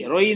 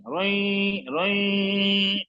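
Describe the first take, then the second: First: "रोई" with no nasal hum; wrong without nasal. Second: "रोई" drawn out with a nasal hum; through the nose. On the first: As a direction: say "रोई" short, keeping it out of the nose. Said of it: "नाक से आवाज ही नहीं आई". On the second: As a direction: send the end of "रोई" into the nose and hold it. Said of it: "नाक से देखो". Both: Shown as a demonstration.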